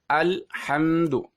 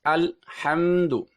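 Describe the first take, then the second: Both takes have the same delivery.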